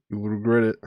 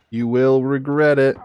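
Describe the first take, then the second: First: Said in the usual way. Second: Playful warning, rising on regret; mock threat. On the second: Shown as a demonstration. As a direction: threaten with a grin. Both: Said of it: "repeated with more force".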